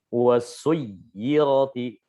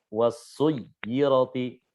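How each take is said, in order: The two takes are said the same way.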